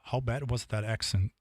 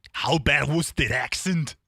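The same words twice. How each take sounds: First: Said in the usual way. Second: Mock Arnold Schwarzenegger Austrian accent. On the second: To chat after misreading accident, mock Arnold Austrian accent. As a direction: repeat it like Arnold, hammed-up Austrian. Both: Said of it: "Just the Arnold came out of me".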